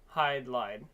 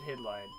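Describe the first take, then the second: First: The first syllable has a long 'eye' vowel. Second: The first syllable has a short 'i' vowel.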